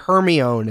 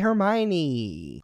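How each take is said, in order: First: The name is said as readers first guessed it. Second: The name is said with its standard pronunciation. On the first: "as everyone who read to themselves" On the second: "happy birthday, Hermione"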